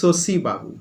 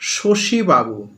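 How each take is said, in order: First: The name begins with an s sound. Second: The name begins with a sh sound. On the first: This is a regional pronunciation. "কেউ কেউ বলে ... দন্তে স এর মতো হয়ে যাচ্ছে" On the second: This is the usual pronunciation. "আমরা বলি"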